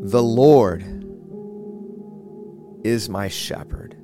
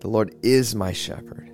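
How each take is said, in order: First: The stress is on the word Lord. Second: The stress is on the word is.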